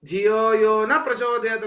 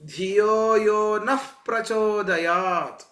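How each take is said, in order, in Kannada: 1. 'na' ಸಾದಾ ಸ್ವರದಲ್ಲಿ ಕೊನೆಯಾಗುತ್ತೆ. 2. 'na' ಉಸಿರಿನ h ಶಬ್ದದಲ್ಲಿ ಕೊನೆಯಾಗುತ್ತೆ. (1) "ಅಂದ್ಬಿಟ್ರೆ ... ಪ್ರಚೋದನೆ ಮಾಡದೇ ಇರಲಿ ಅಂತ ಅರ್ಥ" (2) "ಅಂತ ಹೇಳಬೇಕು"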